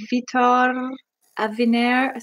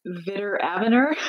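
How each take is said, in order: First: "Vitor Aviner" with stressed final syllables, foreign-accented; "Vitor Aviner" said as a foreign name, endings stressed; attempted native accent on the name. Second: "Vitor Aviner" anglicized in a Canadian accent; Canadian-accented "Vitor Aviner", r-coloured endings, questioning rise. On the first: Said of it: "giving me crap for not pronunciating, like, or using the". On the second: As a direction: say "Vitor Aviner" as a plain Canadian would, first syllables stressed. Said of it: "in a Canadian accent". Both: Shown as a demonstration.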